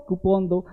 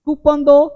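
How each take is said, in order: First: कूपन as "koo-PON", softer; correct pronunciation. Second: कूपन as "KOO-pun", high; wrong pronunciation. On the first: Teacher repeats the corrected request, softly. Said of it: "ये हल्का सा प में लगाना". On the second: Teacher repeats the mistaken request, mispronounced. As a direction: pitch कूपन दो up with a "pun" ending. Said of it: "तो कूपन नहीं बोलना". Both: Shown as a demonstration.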